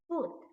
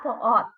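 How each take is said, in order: First: The word is said as one syllable. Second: The word is split into two syllables. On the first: The speaker calls it right. "Only one syllable sound" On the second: The speaker calls it wrong. "It's not for ought"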